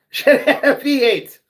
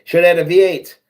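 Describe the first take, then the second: First: Higher, repeating it through a laugh. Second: Said in the usual way. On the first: Shown as a demonstration. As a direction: laugh at your own joke as you repeat it.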